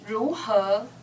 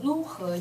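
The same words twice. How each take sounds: First: The first syllable has a rising second tone. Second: The first syllable has a level first tone. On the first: The speaker calls it right. "It should be second tone" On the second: The speaker calls it wrong. "first tone 如何 you said that"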